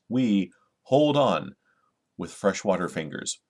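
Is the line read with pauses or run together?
pauses. It is read with pauses between the phrases.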